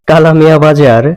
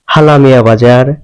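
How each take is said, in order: First: It is said with standard Bengali k sound. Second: It is said with Chittagong h for k.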